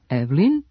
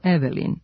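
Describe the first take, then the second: First: The middle e is dropped. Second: The middle e is pronounced. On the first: The speaker calls it right. "ukoliko nemom e u reči prethodi samo jedan suglasnik, ono se gubi. Zbog toga je ... pravilno Evelin" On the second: The speaker calls it wrong. "umesto Evelin"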